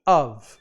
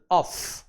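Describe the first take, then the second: First: "of" ending on a short voiced v, like "ov"; of with a v sound. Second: "Of" ending on a long hissing f, said as "off". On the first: Teacher contrasting of for students, v sound in "of". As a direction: buzz the v at the end of "of". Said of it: "Já aqui". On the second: Teacher contrasting off for students, long f in "Of". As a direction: stretch the f at the end of "Of", breathy. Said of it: "aí o som vai pro F mesmo". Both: Shown as a demonstration.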